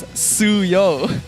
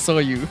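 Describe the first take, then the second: First: The name ends with an 'oh' sound. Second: The name ends with a 'you' sound. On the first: The speaker calls it right. "It's you and then O" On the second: The speaker calls it wrong. "say his name as Soyu"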